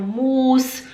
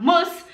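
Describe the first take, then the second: First: "muss" with a long, drawn-out u; students' mistake. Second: "muss" with a short u; correct short vowel. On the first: Teacher imitates her students' mistake, long-vowel "muss". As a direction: stretch "muss" slowly into "muus". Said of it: "elas falam". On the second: Teacher gives the intended word, short-vowel "muss". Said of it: "Em vez de falar". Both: Shown as a demonstration.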